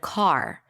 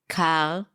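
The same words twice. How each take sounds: First: The R at the end is clearly pronounced. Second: The R is slight friction in the throat. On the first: "instead of car" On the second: "just like this slight friction in the back of the throat"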